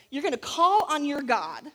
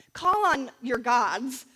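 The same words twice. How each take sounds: First: Said in the usual way. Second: Slow, louder, leaning on the s of gods; stress on plural gods. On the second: Shown as a demonstration. Preacher correcting herself: gods, drawn out and stressed.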